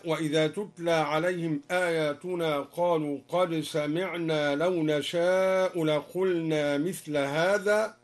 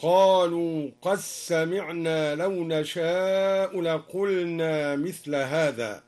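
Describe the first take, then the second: First: Said in the usual way. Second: "قد سمعنا" with the dal assimilated into the sin, qas-samiʕna, slow; dal merged into sin. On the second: Shown as a demonstration. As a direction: slide "قد" into a doubled sin. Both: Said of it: "أدغم الدوري أيضًا الدال في السين".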